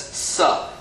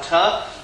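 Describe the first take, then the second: First: The syllable begins with an s sound. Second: The syllable begins with a t sound. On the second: "They always say that both of them are the same sound"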